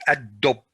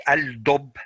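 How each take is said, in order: First: Ad-dub with the l gone and a doubled d; ad-dub, l merged into the d; correct ad-dub. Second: Al-dub with a clear l before the d; al-dub with the l sounded; wrong al-dub. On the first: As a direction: say ad-dub as add-dub. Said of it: "you say". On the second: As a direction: keep the l in al-dub as a mistake. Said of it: "You don't say". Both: Shown as a demonstration.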